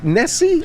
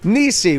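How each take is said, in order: First: The first vowel sounds like 'eh'. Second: The first vowel sounds like 'ee'. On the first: The speaker calls it wrong. "Is it Nessie? Am I saying it right?" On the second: The speaker calls it right. "It's actually Nisi"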